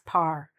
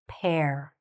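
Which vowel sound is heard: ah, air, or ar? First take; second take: ar; air. First: The vowel sounds like "ar" in car. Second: The vowel sounds like "air" in hair. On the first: The speaker calls it wrong. "The mistake is sometimes this is said as par" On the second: The speaker calls it right. "but we want to say what?"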